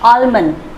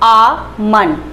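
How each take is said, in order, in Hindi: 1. L की ध्वनि बोली जाती है। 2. L की ध्वनि मूक है। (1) "बट ये गलत है" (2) "इसका एल जो है वो साइलेंट होगा"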